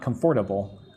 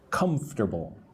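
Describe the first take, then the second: First: The word is said with four syllables. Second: The word is said with three syllables. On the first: The speaker calls it wrong. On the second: The speaker calls it right. "I say it with three parts"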